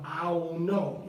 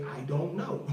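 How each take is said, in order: First: I DON'T KNOW stretched into "I'on know"; slow, merged "I 'on know" for "I don't know"; slurred everyday form. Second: I DON'T KNOW with each word and the D sounded; full form. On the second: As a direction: say "I don't know" as separate, careful words. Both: Shown as a demonstration. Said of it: "is how we say".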